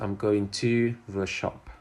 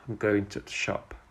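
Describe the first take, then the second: First: The word 'to' is said fully and clearly. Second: The word 'to' is reduced to a weak sound. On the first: The speaker calls it wrong. "And not" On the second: The speaker calls it right. "To is often pronounced as t in connected speech"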